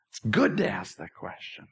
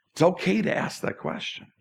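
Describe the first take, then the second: First: Lower, much softer reassurance; low, hushed reassurance. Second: Breathy whisper of reassurance; hushed, sincere whisper. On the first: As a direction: drop the voice and say it quietly. Repeats reassurance, even softer. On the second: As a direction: lean in and whisper it gently. Pastor reassures about doubting God. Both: Real, not acted.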